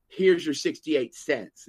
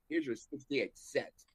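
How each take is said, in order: First: Slow, louder first take; slow clerk line. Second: Slow, much softer retelling; slow soft repeat. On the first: Teller mimics clerk slowly, at full voice. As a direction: draw it out at full voice. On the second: Teller repeats clerk's line slow and much softer. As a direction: drop it to a slow near-murmur. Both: Retold or imitated.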